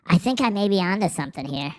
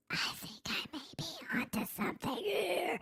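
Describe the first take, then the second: First: Said in the usual way. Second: Very soft, high, strained whisper; mock whisper. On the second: Streamer repeating their own line for fun, eerie high whisper. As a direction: squeeze it out as a tiny high whisper.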